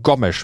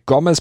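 First: The name is said with Portuguese pronunciation. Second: The name is said with German pronunciation. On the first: The speaker calls it right. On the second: The speaker calls it wrong.

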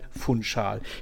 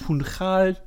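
First: The 'ch' is pronounced as an 'sh' sound. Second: The 'ch' is pronounced with a non-'sh' sound. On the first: The speaker calls it right. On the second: The speaker calls it wrong.

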